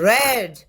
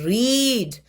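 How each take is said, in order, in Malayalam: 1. സ്വരം ഹ്രസ്വമാണ്, 'red' പോലെ. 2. സ്വരം ദീർഘമാണ്, 'reed' പോലെ. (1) "റെഡ് എന്ന് വായിച്ചത്" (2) "റീഡ് എന്ന് വായിക്കാതിരുന്നത്"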